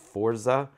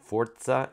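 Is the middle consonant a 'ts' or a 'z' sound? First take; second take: z; ts. First: The middle consonant is a plain 'z' sound. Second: The middle consonant is a 'ts' sound. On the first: The speaker calls it wrong. "Forza is how most people pronounce it, is actually incorrect" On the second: The speaker calls it right. "Forza is actually how it's pronounced"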